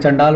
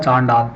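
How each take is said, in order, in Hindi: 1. पहला स्वर छोटा है। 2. पहला स्वर लंबा है। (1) "वैसे चंडाल बहुत पढ़ते हैं" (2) "लेकिन ये लिखा हुआ है चांडाल"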